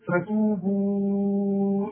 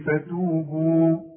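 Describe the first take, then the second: First: The final vowel is held for four counts. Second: The final vowel is held for two counts. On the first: The word is joined to the next word. "إذا وصلت أمد أربع حركات" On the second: The reciter stops after the word. "إنما إذا وقفت"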